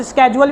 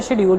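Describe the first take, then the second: First: स्केड्यूल said as skedule, hard sk at the start; schedule with sk sound. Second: शेड्यूल said as shedule, soft sh at the start; schedule with sh sound. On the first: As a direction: say स्केड्यूल with a k after the s. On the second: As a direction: say शेड्यूल opening with sh, no k. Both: Shown as a demonstration. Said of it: "जिसकी pronunciation different होती है".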